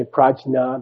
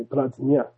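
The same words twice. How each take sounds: First: Prajna split as praj-na; hard English J in prajna; wrong prajna with J. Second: Prajna said as pradz-nya; correct prajna with dz-nya. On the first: Teacher showing scholars' error, prajna with a J. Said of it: "They don't say Prajna". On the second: Teacher showing correct Sanskrit, prajna with dz-nya. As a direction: turn prajna's J into dz, gliding to nya. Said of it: "they say Prajna". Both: Shown as a demonstration.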